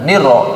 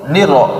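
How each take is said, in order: First: The r sound is cut short. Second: The r sound is cut short.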